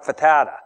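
The vowels in the name are short. "All long O's get shortened up"

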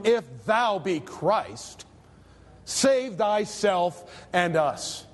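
The line is said in a scornful tone. The speaker is ridiculing the one addressed. "That's the idea of the scripture. He was mocking the Lord"

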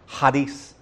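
It is said with a Greek-style pronunciation.

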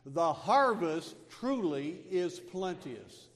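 It is said firmly, with strong conviction. The speaker calls it right. "let's say it with real conviction"

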